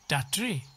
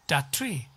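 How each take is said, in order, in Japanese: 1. 'that'のtは'tree'に吸収されます。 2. 'that'のtははっきり発音されます。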